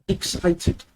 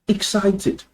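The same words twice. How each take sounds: The two takes are said the same way.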